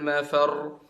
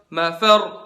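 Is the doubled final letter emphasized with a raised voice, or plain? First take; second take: plain; emphasized. First: The doubled final letter is said plainly, unemphasized. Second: The voice rises on the doubled final letter. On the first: The speaker calls it wrong. "bukan ainal mafar" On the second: The speaker calls it right. "Kalian angkat suaranya"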